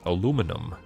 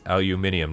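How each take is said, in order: First: The word ends without the extra syllable, '-inum'. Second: The word ends with an extra 'ee' syllable, '-inium'. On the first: The speaker calls it wrong. "not inum" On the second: The speaker calls it right. "it's inium"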